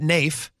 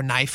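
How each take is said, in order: First: Nafe said like "nayf", rhyming with safe. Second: Knife said like the word knife. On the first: Host trying one way to say the store owner's name. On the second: Host correcting himself on the store owner's name. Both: Shown as a demonstration. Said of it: "however you pronounce his name".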